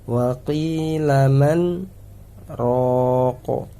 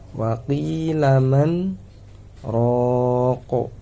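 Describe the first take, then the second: No difference in how they are said.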